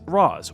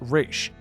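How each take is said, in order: First: The name is given its Arabic pronunciation. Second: The name is given its Hebrew pronunciation. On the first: "The Arabic pronunciation is Raz" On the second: "the Hebrew one is Ra's"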